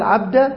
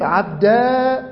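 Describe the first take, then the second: First: عبدة with a brief final a; short fatha. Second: عبدا held on a long level aa; long alif. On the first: Teacher demonstrating a dropped ya, short a on عبدة. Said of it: "حذف الياء وفتح الدال". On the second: Teacher demonstrating the kept alif, long aa on عبدا. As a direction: stretch the final aa of عبدا. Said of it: "وإثبات الألف". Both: Shown as a demonstration.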